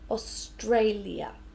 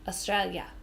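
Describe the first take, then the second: First: All syllables are said clearly and separately. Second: Syllables are merged into fewer, shortened ones. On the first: This suits a formal speech or context. "correct pronunciation" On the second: This is how people say it informally. "we put this all to make one syllable"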